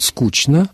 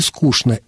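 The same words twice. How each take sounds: First: The consonant before n is a ch sound. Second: The consonant before n is a sh sound. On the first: This is one acceptable variant. "особенно если это рифмуется, например, с «однозвучно»" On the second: This is another acceptable variant. "но можно сказать и"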